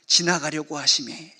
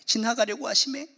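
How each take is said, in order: First: Slow lowered quote. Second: Said in the usual way. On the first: Shown as a demonstration.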